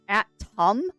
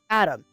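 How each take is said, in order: First: The middle T is clearly pronounced. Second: The middle T is swallowed. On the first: "I don't pronounce atom" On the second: "I pronounce atom. I swallow the T"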